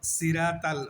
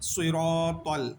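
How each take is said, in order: First: The first s sound is plain and thin. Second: The first s sound is heavy and emphatic. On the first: The speaker calls it wrong. "সিরাতাল হবে না, সিরাতাল হচ্ছে সৎ চিঞ্জ হয়ে যায়, সিন হয়ে যায়" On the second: The speaker calls it right. "তাই বলতে হবে সুইরতল"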